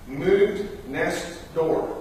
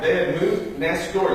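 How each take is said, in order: First: Slow, drawn-out reading of "Moved next door."; "Moved next door." spelled out slowly like a notice; reading the sign. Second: Said in the usual way. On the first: Retold or imitated. Neighbors' sign read out, dragged out slowly.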